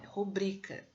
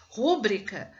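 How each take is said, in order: First: "rubrica" stressed on BRI; correct stress. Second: "Rúbrica" stressed on the first syllable, RÚ-brica, loud; wrong stress demo. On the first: Teacher correcting to "rubrica" stressed on BRI. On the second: Teacher demoing the wrong stress "Rúbrica" on the first syllable. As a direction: punch "Rúbrica" on RÚ. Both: Shown as a demonstration. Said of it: "Não, é rubrica".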